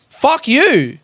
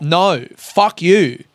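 First: Higher, snapped-off retold retort; quick higher mock retort; retold fuck you. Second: Very slow, each word weighed; deliberate slow dismissal; slow fuck you. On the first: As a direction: fling it back at the agent, pitched up. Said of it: "Hold up". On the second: Real, not acted. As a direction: drag out no, fuck you, one word at a time. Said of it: "that's why I hate travel agents".

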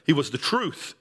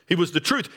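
First: He carried up, truth falls away; stress on he. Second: Truth lifted and rising; truth as the point, ending up; stress on truth. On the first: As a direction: point at him with the word he. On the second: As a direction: land on the word truth. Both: Shown as a demonstration.

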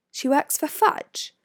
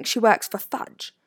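First: Slow, high questioning rise on "Fudge"; puzzled repeat. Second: Said in the usual way. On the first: A narrator's reading. Hermione querying Harry's news about Umbridge, puzzled rise on "Fudge". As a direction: repeat it as a question, "Fudge" lifted, higher pitched. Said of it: "Hermione repeated, frowning".

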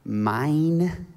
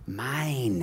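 First: Mock toddler grabbing; childish mine. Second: Said in the usual way. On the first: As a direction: say it like a greedy little kid. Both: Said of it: "a four-letter word, mine".

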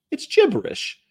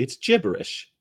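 First: Squeaky high-pitched mock. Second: Said in the usual way.

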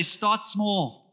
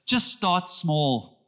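First: Said in the usual way. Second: Just start small, each word drawn out slowly; slow it right down and land every word; slow emphasis. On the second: Shown as a demonstration. Pastor giving the church a line to repeat, slow. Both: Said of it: "Turn to someone and say".

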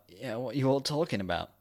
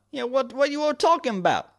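First: Said in the usual way. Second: High, hammed-up American cop; put-on American accent. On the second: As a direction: redo it in a broad mock American accent. Redoes cop's line in put-on accent.

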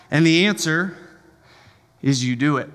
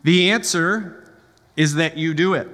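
First: Said in the usual way. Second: Slowed, weighty repeat of the answer; slow emphatic restatement. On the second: Shown as a demonstration. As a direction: lean on each word of The answer, then land is that you do it.

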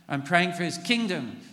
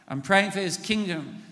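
Both takes have the same delivery.

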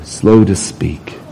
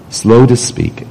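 First: Slow to speak breathed out in a whisper; a slow hushed whisper. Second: Said in the usual way. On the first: Shown as a demonstration. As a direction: drop to a slow hush on slow to speak. Preacher stresses key phrase.

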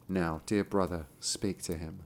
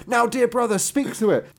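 First: Low, soft invitation to the brother; quiet. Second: High, loud cheerful invitation; excited. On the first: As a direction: murmur it gently to the brother. Same line reread differently later. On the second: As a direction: announce it with a grin, pitched up. Same line reread differently earlier. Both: A narrator's reading.

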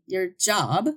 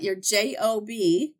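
First: Said in the usual way. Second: J O B spoken as three separate letters, J, O, B; spelled out letter by letter. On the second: Shown as a demonstration. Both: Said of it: "I always say that your J O B".

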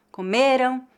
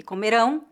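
First: Comeram with the beat on "ME"; penultimate stress. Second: Comerão with the beat on "RÃO"; comerão as co-me-RÃO, ending strong; final stress. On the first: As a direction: stress the middle syllable of comeram. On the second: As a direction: stress the last syllable of comerão. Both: Shown as a demonstration. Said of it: "é a sílaba tônica".

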